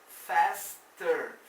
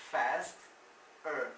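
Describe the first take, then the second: First: Faster said loud with a falling tune; stressed example word. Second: Said in the usual way. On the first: Shown as a demonstration. Teacher drilling the comparative, loud. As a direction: hit faster hard. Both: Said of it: "Esse than quer dizer".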